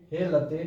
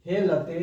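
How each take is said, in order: Both takes have the same delivery.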